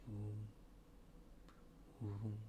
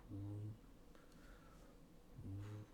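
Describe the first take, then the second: No difference in how they are said.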